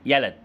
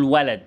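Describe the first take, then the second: First: يلد with y replacing the opening w; child's يلد, y-initial; child's glide substitution. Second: Said in the usual way. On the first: Shown as a demonstration. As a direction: say يلد, w swapped for y. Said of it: "يقول لك يلد". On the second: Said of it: "قول ولد".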